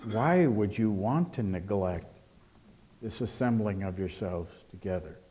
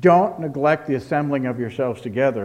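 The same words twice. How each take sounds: First: Asking a question. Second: Loud mock command, DON'T hit hard. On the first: Acted. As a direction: ask it gently, letting WHY stretch. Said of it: "it's as if it asks a question". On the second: Preacher imitating misuse of the text, loud commanding tone. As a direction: lay it down like an order. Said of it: "where it was used as a command".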